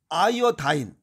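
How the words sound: It ends with an 'eye-uh-dine' sound. "아이오다인은 이건 미국식 발음입니다"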